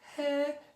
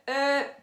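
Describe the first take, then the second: First: The voice is light and loose. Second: The voice is tight and pressed.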